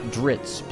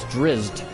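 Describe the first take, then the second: First: The name ends with a ts sound. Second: The z sound comes before a final t. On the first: The speaker calls it wrong. "not T S or T Z ... it just wouldn't be Dritz" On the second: The speaker calls it right. "there are Z's before the T ... it's T at the end"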